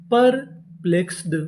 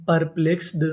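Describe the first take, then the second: First: Slow, drawn-out perplexed, syllable by syllable; slow sounding out. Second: Said in the usual way. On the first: Shown as a demonstration. Teacher sounding out the word slowly for students. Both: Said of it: "perplexed का मतलब होता है".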